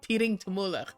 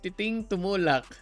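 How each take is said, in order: First: It is said with an American accent. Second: It is said with a Filipino accent. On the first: "even with the American accent" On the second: "I'm pronouncing it properly"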